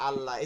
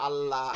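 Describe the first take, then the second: No difference in how they are said.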